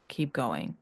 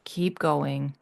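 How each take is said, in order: First: "Keep going." said lower and softer, like a quiet echo. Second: Said in the usual way. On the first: Real, not acted. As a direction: let "Keep going." fall away, low and soft. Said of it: "repeated encouragement, softer echo". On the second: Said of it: "repeated encouragement".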